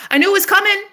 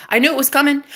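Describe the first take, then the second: First: Very high-pitched triumphant cry; exultant. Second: High, gleeful declaration; triumphant. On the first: Woman celebrating what she manifested, exultant crowing. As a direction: crow it higher, overjoyed. Second, escalated triumphant repeat. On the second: Woman saying she knew he was coming, triumphant. First of escalating triumphant repeats. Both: Real, not acted.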